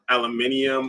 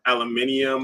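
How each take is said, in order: First: It is said with five syllables, British style. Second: The same.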